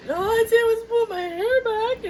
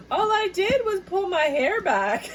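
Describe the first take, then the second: First: Much higher, louder, crying with laughter; high laugh-cry quote; laughing protest. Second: Much higher, slow, laugh-cry quote; incredulous giggling quote; laughing protest. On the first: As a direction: wail it through giggles. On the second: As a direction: squeak it through laughter. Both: Pretend.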